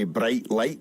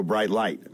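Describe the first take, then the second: First: Scottish vowels in "bright light"; Scottish "bright light", tight short vowel; Scottish accent. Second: American open long i in "Bright light"; American accent. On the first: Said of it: "in Scotland we say bright light". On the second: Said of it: "in America they go". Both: Shown as a demonstration.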